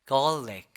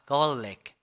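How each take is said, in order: No difference in how they are said.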